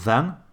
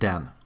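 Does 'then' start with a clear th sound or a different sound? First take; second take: th sound; different sound. First: It starts with a clear th sound. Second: It starts with a substitute for the th sound. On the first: The speaker calls it right. "Instead of saying then" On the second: The speaker calls it wrong. "they say then"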